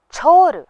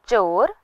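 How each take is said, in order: First: छोर high and loud, breathy onset; aspirated chh. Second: चोर with a plain ch; unaspirated ch. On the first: Teacher warns of mix-ups, छोर with strongly aspirated chh. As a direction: push a puff of air into छोर. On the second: Teacher warns of mix-ups, चोर with unaspirated ch. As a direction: say चोर without a puff. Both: Shown as a demonstration. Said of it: "के उच्चारण में हम कई बार गलती".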